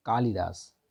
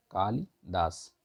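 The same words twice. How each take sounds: First: Said in the usual way. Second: "Kalidas" बहुत धीरे, खींचकर; "कालिदास" को धीमे-धीमे अक्षर अलग कर बोलो; slow repeat. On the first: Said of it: "बारात होता है". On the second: Shown as a demonstration. ("Kalidas" धीमी, साफ़ पुनरावृत्ति)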